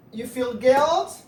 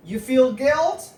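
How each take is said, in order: Both takes have the same delivery.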